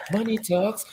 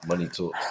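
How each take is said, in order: First: Money talks up high; higher pitched. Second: Said in the usual way. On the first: Shown as a demonstration. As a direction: lift it into a high squeak. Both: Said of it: "repeated in new voice".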